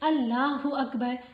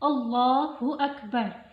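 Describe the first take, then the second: First: The L in Allah sounds light and thin. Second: The L in Allah sounds heavy and full. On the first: The speaker calls it wrong. "इसको अगर हम बारीक करके पढ़ेंगे" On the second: The speaker calls it right. "तो हमने भारी करके पढ़ना है।"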